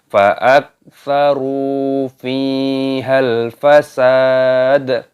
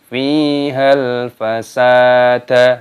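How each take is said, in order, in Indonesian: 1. Kata terakhir berakhir pada d mati yang dipantulkan. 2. Kata terakhir berakhir dengan vokal tambahan. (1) "maka dimatikan huruf yang bagian paling belakang dan ditambah dengan qalqalah" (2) "Jadi salah kalau kita bacanya fihal fasada"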